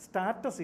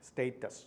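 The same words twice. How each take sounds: First: Status with an open "ah", STAH-tus; mispronounced status. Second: Status as STAY-tus; correct status. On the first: Teacher warning students off a mispronunciation, status said STAH-tus. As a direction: say status wrongly as STAT-us, long a as in start. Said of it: "is not the correct pronunciation". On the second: Teacher giving students the correct pronunciation, status said STAY-tus. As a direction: say status with a long "ay" in the first syllable. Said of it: "The correct pronunciation is status". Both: Shown as a demonstration.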